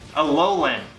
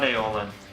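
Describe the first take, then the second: First: The word is said as 'a-LO-lan' with two l sounds. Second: The word is said as 'AY-o-lin' with one l sound. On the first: The speaker calls it right. "Alolan, not Aeolin" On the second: The speaker calls it wrong. "I can't believe you pronounced that wrong"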